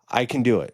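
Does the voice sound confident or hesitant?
hesitant. It is said weakly, without conviction. The boy does not yet believe it. The speaker calls it wrong. "I still don't believe you"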